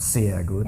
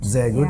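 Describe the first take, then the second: First: The s at the start is a sharp hiss. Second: The s at the start buzzes like z. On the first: The speaker calls it wrong. "not sehr gut" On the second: The speaker calls it right. "so it must be like this, the buzzing"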